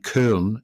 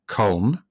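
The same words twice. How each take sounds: First: The vowel is a front rounded ö sound. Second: The vowel is a plain back o sound. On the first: "is with the dots" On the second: "that's without the two dots"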